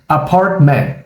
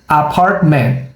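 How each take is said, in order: Both takes have the same delivery.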